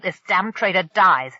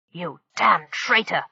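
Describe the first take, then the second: First: Loud, falling threat on dies; threaten, landing hard on dies; menacing threat. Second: Slow snarl leaning on damn. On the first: Acted. Pirate threatens hostage. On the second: A narrator's reading. Pirate grabbing the traitor Thunderstorm, slow snarl. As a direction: snarl it, hitting damn hard. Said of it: "the pirate snarled".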